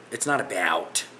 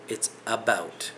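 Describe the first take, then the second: First: "about" with a wide American "a-ba-owt" vowel. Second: Said in the usual way. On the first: Shown as a demonstration. Correcting viewers on the word, American-style "about" with an added A. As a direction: stretch an A sound into the middle of "about". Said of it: "There's no A in the middle".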